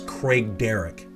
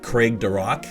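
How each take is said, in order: First: The name is said as Craig Derrick. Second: The name is said as Craig Duroc. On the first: This is the accepted local pronunciation. The speaker calls it right. "but it's Craig Derrick" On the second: This is a common mispronunciation. The speaker calls it wrong. "I've heard this pronounced uh, Craig Duroc"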